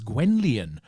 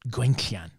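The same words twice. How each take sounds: First: The name is said with an English pronunciation. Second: The name is said with a Welsh pronunciation. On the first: "you would pronounce her full name as Gwenllian if you were, uh, let's say, English" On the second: "is the Welsh pronunciation"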